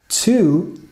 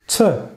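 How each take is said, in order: First: The vowel is a full, clear vowel. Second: The vowel is reduced to a weak schwa.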